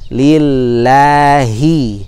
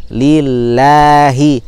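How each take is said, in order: Both takes have the same delivery.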